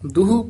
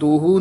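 First: The first vowel is a short u sound. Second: The first vowel is an o sound. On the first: The speaker calls it right. "ਦੱਦੇ ਔਂਕੜ ਹਾਹੇ ਦੁਲੈਂਕੜ" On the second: The speaker calls it wrong. "ਦੋਹੂ ਨੀ ਕਹਿਣਾ"

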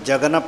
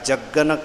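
First: The g sound is short and single. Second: The g sound is doubled and held. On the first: The speaker calls it wrong. "ਇਸ ਨੂੰ ਜਗਨ ਪਾਠ ਨਹੀਂ ਕਰਨਾ ਆਪਾਂ" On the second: The speaker calls it right. "ਥੋੜ੍ਹਾ ਅਦਕ ਲਾ ਕੇ ਉਚਾਰਨ ਹੋਵੇਗਾ"

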